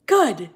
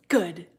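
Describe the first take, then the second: First: Loud gloating good. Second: Said in the usual way. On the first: Real, not acted. Gloating reply to a kid fan.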